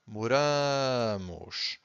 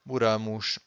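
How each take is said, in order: First: The stressed syllable is strongly exaggerated. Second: The stressed syllable is said with natural weight. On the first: "to emphasize where the strongest syllable is" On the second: "if I'm speaking normally"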